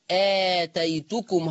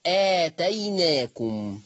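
First: آتيتكم said slowly with the taa kept; Hafs reading. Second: آتيناكم drawn out very slowly, the taa turned to noon; Warsh reading. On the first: Teacher shows the Hafs form آتيتكم slowly. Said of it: "هتقرأ كده آتيتكم". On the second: Teacher demonstrates the Warsh reading آتيناكم slowly. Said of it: "هتقرأ". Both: Shown as a demonstration.

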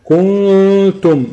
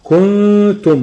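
First: "كنتم" with a long oo after the kaf, then the hum; madd before ghunna. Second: "كنتم" with a short u moving at once into a high held hum; "كنتم" with a long ghunna and no vowel stretch; straight into ghunna. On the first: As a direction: stretch the vowel of "كنتم" first and only then nasalise, high and slow. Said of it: "هو جاب مد وبعد كده جاب الغنة". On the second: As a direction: go from the kaf of "كنتم" directly to the nasal hum. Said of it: "بتخرج من الكاف على الغنة على طول". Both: Shown as a demonstration.

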